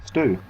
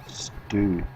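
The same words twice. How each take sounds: First: "Stew" said a little higher, as a clean stoo; pronouncing stew. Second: "Stew" said softer and falling, a drawn-out stoo; stew again, softer. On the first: Streamer tries the word "Stew" for chat, a higher take. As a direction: say the word "Stew" brightly and plainly. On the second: Streamer repeats "Stew" to himself, a softer second take. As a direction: let the word "Stew" drop away quietly. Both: Shown as a demonstration. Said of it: "Say stew".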